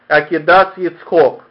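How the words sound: Tav sounds as s, final vowel is 'o'. This is close to the Lithuanian tradition. "или не как Акидас Ицхок, как, видимо, в чем-то приближено к Литве"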